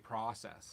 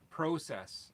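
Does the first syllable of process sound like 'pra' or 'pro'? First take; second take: pra; pro. First: The first syllable sounds like 'pra'. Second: The first syllable sounds like 'pro'. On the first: This is how people in Minnesota say it. "down in uh, Minnesota and places, they say process" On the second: This is the Canadian way of saying it. "I say uh, process"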